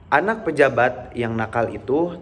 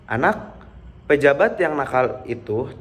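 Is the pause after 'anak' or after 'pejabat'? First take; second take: after pejabat; after anak. First: A long pause comes after the word pejabat. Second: A long pause comes after the word anak. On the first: The official's child is the naughty one. "antara pejabat yang ada pada kalimat kedua" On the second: The official is the naughty one. "jeda yang agak lama antara anak dan pejabat pada kalimat pertama"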